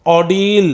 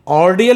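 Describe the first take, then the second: First: "ordeal" as "aw-deel", one long ee in the ending; correct pronunciation. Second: "Ordeal" with an r sounded and a two-vowel "-di-al" ending; wrong pronunciation. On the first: Teacher modelling the word for students, "ordeal" pronounced aw-deel. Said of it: "the pronunciation is". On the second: Teacher showing students how not to read it, "Ordeal" mispronounced as or-di-al. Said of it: "नहीं पढ़ेंगे". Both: Shown as a demonstration.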